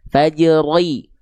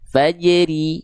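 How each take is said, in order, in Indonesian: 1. R-nya tebal, lidah bagian belakang naik. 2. R-nya tipis, lidah bagian belakang rendah. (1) "Jadi bukan"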